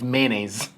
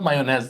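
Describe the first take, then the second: First: The word is said with an English pronunciation. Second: The word is said with a Turkish-style pronunciation. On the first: The speaker calls it right. "it's mayonnaise" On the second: The speaker calls it wrong. "actually it's not mayonnaise in English"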